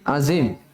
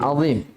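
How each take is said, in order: First: The middle consonant is a plain z sound. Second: The middle consonant is an emphatic dh sound. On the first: The speaker calls it wrong. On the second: The speaker calls it right.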